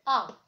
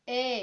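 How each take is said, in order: First: French letter A, a plain open "ah". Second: English letter A, gliding "ay". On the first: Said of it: "En français, ici, c'est A". (A prononcé à la française) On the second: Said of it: "En anglais, c'est A". (A prononcé à l'anglaise, « éï ») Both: Shown as a demonstration.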